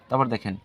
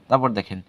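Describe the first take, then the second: Both takes have the same delivery.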